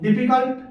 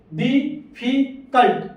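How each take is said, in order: First: Said in the usual way. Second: डिफिकल्ट drawn out very slowly in three beats; syllable by syllable. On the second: Shown as a demonstration. Teacher slowly splits डिफिकल्ट to show three syllables. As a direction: sound out डिफिकल्ट piece by piece. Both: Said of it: "ये भी तीन बार बोला".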